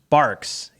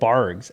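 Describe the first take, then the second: First: The word ends with a K sound. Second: The word ends with a hard G sound. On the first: The letter is a lowercase q. The speaker calls it right. "So it's Barks" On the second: The letter was read as a lowercase g. The speaker calls it wrong. "my whole life I've called it Bargs"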